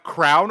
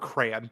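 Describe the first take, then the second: First: It is squeezed into one syllable like crown. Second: It is said as two full syllables. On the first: "it's either like crown" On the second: "or crayon"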